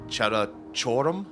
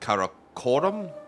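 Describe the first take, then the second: First: The name begins with a ch sound. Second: The name begins with a hard k sound.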